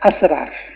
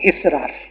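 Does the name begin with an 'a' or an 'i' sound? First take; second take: a; i. First: The name begins with an 'a' vowel. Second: The name begins with an 'i' vowel. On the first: The speaker calls it right. "नाम क्या होता है" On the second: The speaker calls it wrong. "लोग गलत बोलते हैं"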